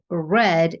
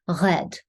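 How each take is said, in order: First: The R is an English R in the mouth. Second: The R is made back in the throat. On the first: "instead of red" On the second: "your R is going to be in the throat"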